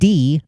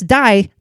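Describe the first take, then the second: First: The vowel sounds like the letter 'e'. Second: The vowel sounds like the word 'eye'. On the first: It is the German word for 'the'. "That's not the German pronunciation of D" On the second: It means death, as in dying. "Now that's die"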